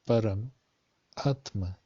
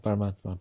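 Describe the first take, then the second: First: The word is split with a pause inside. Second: The word is said quickly as one unit. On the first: It brings out the meaning supreme soul. The speaker calls it right. "don't just say Paramatma, but it's Param, Atma" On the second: The parts of the word are not noticed. The speaker calls it wrong. "people will say very quickly"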